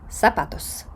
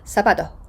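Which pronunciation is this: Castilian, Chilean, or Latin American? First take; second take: Latin American; Chilean. First: The z is a plain s sound. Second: The final s sounds almost like an h. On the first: "В Чилі і в інших країнах Латинської Америки ви це почуєте як «сапатос»" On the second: "Остання «с» оглушується, звучить практично як «х»"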